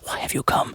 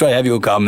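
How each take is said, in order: First: It is said in a whisper. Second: It is said in a normal voice.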